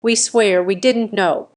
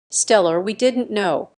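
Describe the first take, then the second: First: Mother swears louder, close to tears; louder tearful plea. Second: A hint of a tearful mother; mildly choked-up plea; near tears. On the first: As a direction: push the swear out, near crying. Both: A narrator's reading. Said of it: "sounding on the verge of tears".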